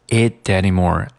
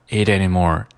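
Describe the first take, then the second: Both takes have the same delivery.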